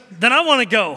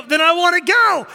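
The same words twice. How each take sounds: First: Said in the usual way. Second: Put-on high, loud kid declaration; hammed-up stubborn child; insistent child imitation. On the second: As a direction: belt it out like a determined kid. Son's insistent repeated answer.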